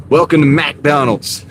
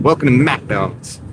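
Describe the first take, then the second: First: Slow, sassy drive-thru greeting; drive-thru attitude. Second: Slow, sassy drive-thru greeting; a little attitude. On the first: Driver mimics the drive-thru worker, slow and sassy. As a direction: drawl it like a bored cashier. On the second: Driver demonstrates the line for his chat, slow with attitude. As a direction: give it some cashier sass. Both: Shown as a demonstration. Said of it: "You gotta say it with a little attitude".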